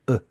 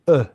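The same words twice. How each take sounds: First: The vowel sounds dry and weak, held in the throat. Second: The vowel sounds powerful and projected toward the front. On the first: The speaker calls it wrong. "on va le sécher en fond de gorge" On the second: The speaker calls it right. "le projeter en haut du palais, derrière les incisives du haut"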